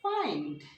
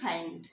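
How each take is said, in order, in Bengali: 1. স্বরধ্বনিটি টেনে বলা হয়, প্রথমে লম্বা a তারপর i। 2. স্বরধ্বনিটি ছোট ও দ্রুত করে বলা হয়। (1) "একটু লং করে আ তারপরে ই" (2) "আমরা সাধারণত বলি ফাইন্ড"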